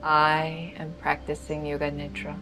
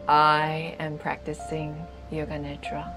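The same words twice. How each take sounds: The two takes are said the same way.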